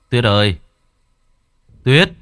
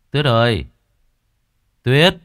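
First: Louder shout for his wife; calling louder. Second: Calling out. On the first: Husband calls his missing wife, shouting louder. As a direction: call her name out loud across the silent house. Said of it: "Gã lại gọi". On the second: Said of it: "Gã cất tiếng gọi vợ". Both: A narrator's reading.

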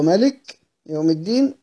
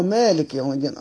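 First: Short first vowel in ملك; ملك with a quick, unstretched "ma"; short-vowel reading. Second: Long first vowel in مالك; long-vowel reading. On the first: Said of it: "وهو مالك يوم الدين أيضا". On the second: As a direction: say مالك as "maalik", first a stretched. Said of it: "ثبت وهو ملك يوم الدين". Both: Shown as a demonstration.

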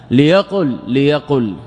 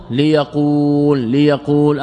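First: ليقل said li-yaqul with a short final u; short vowel. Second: ليقول drawn out as li-yaquuul, long u; long original vowel. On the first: Teacher giving students the example, short-vowel ليقل. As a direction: end ليقل on a short, falling u. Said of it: "أصله ليقول". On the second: Teacher showing students the underlying form, long-vowelled ليقول. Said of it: "أصله". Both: Shown as a demonstration.

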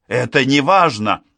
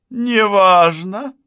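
First: Said in the usual way. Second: НЕ ВАЖНО drawn out, high and loud, as a question; incredulous echo. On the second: A narrator's reading. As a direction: throw НЕ ВАЖНО back in high, slow disbelief. Outraged echo of the dismissal. (НЕ ВАЖНО — громко, высоко, с возмущённым недоверием)

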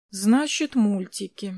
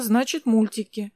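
First: Musing repeat, "Значит" left hanging on a rise; pensive, lingering "Значит", then "мультики" dropping; thoughtful. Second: Said in the usual way. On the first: A narrator's reading. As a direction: repeat it as if weighing the idea. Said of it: "задумчиво повторил Глеб".

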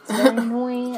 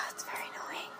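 First: Half-laughing gripe; laughing complaint. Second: Sigh, then whisper it fast. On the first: Complaining to cohost about Donna, laughing aloud. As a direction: say it aloud with a laugh breaking through. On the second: Complaining to cohost about Donna, sighed whisper. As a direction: breathe it out like a tired aside. Sighs then repeats louder. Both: Real, not acted.

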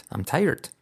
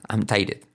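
First: "tired" said like Spanish "taller", "tai-erd"; right pronunciation. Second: "tired" said as two syllables, "tai-ded"; wrong pronunciation. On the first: Teacher giving learners the correct pronunciation. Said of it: "No, tired". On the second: Teacher showing learners which pronunciation to avoid. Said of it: "La clave es no decir tired". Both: Shown as a demonstration.

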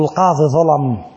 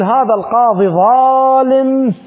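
First: Said in the usual way. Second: "ظالم" drawn out slowly and pitched high, the word leaned on hard; slow, high and weighty, landing on "ظالم" as a judgment; "ظالم" said slowly and high, as a full verdict on the judge; stressed ظالم. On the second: Shown as a demonstration. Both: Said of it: "ظلم لو ظالم؟".

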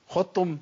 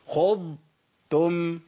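First: خضتم with ض swallowed into the ت, like xottum; خضتم said fast, ض and ت merged; wrong merged dad. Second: خضتم very slowly, full ض then a separate ت; خضتم, lift the tongue between ض and ت; correct separated dad. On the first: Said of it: "لا، ما ينفعش". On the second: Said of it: "اسمعوا مني كده". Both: Shown as a demonstration.

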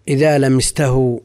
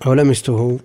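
First: لمسته ending in "-tahu"; fatha on the ta. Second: لمسته ending in "-tuhu", rising as a question; first-person form of لمسته, "tu" before the hu; damma on the ta. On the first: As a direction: say لمسته as "lamistahu", with an a after the t. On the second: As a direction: say لمسته as "lamistuhu", with a u after the t. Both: Shown as a demonstration.

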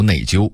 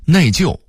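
First: 内疚 as nèijiū, 疚 level; level first tone on 疚 in 内疚; Beijing-style 内疚 without a falling ending; Beijing dialect reading. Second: Said in the usual way. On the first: Shown as a demonstration. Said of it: "北京话读". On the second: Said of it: "北京话读内疚".

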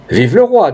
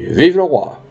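First: High-pitched royalist acclamation; lifted, rallying political cry; crowd cheer. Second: Obliging repeat, slightly less forceful; restrained, high-pitched agreement with a voter; candidate's echo. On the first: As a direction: hail the king from the crowd. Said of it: "dit une autre voix". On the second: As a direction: parrot the royalist cheer back. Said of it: "Le candidat répondit". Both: Acted.

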